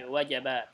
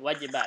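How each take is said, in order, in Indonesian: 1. Vokal kedua adalah bunyi 'a'. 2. Vokal kedua adalah bunyi 'i'. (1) "jimnya fathah, wajabat" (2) "bukan wajibat"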